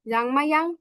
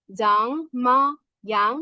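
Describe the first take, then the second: First: Said in the usual way. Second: Very slow "জাংমায়াং" in separate syllables. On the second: Shown as a demonstration. Teacher breaks the word down for learners, very slowly. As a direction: stretch out "জাং", "মা", "young" one by one.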